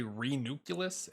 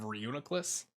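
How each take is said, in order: First: "Renuculus" with the N jumped forward, ree-NUKE-yuh-lus; "Renuculus" garbled as ree-NUKE-yuh-lus; mispronounced Pokemon name. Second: Said in the usual way. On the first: Shown as a demonstration. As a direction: say "Renuculus" like ree-nucleus, swapping the middle sounds. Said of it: "I always wanna say Renuculus instead of". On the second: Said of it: "instead of Reuniclus".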